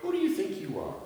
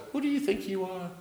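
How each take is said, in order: First: Higher but softer pointed rebuke; God rebuking Job, higher and hushed; mock rebuke. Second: Higher, softer rebuke; Jesus scolding the disciples, higher and hushed; Jesus's rebuke. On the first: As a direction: ask it like a scolding challenge. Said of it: "God is saying to Job". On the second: Acted. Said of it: "is saying to his disciples".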